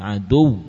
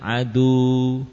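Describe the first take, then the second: First: The final w is doubled and pressed on the lips. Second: The final w is a plain long vowel. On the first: The speaker calls it right. "tapi aduw" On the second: The speaker calls it wrong. "Bukan wawu maddiyah adu"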